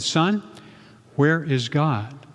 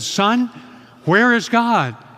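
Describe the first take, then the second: First: It is said at normal loudness. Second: It is said loudest of all.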